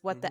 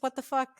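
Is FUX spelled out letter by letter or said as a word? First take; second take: letters; word. First: FUX is spelled out as separate letters. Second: FUX is said as one single word. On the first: "this can be pronounced as what the F U X" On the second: "or just what the fuck"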